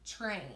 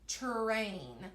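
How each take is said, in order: First: The word is said quickly as one blended sound. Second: The word is stretched out slowly, sounds separated. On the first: "if we say it really fast, it kind of sounds like that" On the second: "if I really stretched it out, it would be like this"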